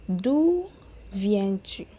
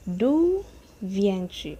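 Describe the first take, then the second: No difference in how they are said.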